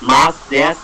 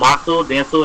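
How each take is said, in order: First: The final u vowels are dropped. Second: The final u vowels are fully pronounced. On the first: "যখন বলার ক্ষেত্রে হচ্ছে মাসু এবং এই বিষয়টা উচ্চারিত হবে না" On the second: "উচ্চারণ হওয়ার কথা ছিল মাসু দেসু এরকম"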